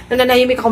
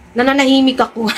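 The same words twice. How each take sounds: First: Fast, laughing through Nananahimik ako. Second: Said in the usual way. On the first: Shown as a demonstration. Vlogger claiming innocence to viewers, laughing Nananahimik ako. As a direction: giggle out Nananahimik ako quickly. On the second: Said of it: "Nananahimik ako, laughs".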